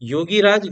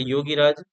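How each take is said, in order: First: The vowel at the end of 'yogi' is long. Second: The vowel at the end of 'yogi' is short. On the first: The speaker calls it wrong. "योगी राज गलत है।" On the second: The speaker calls it right. "छोटी एक मात्रा"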